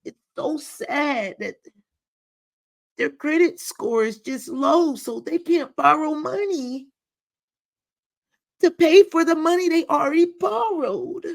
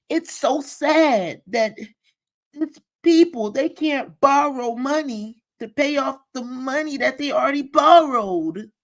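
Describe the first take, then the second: First: High, sugary pity voice, mimicking her; mock pitying voice. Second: High, fake-sympathetic mimicry of her; mock pitying voice. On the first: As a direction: parody her sad-sounding tone, high up. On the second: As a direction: imitate her pitying tone, pitched up. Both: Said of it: "That's how she sounded".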